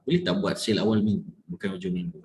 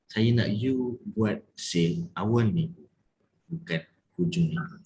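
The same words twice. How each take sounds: First: Quick, low scolding request; controlled demonstration of anger, words pushed together; mock angry. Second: Firm, not angry. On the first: Coach showing the angry version of the request, mock angry. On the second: Coach asking for sales early in the week, firm. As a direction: spell it out word by word, dropping at the end. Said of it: "So, bila tegas? Macam mana nak jadi tegas?". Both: Shown as a demonstration.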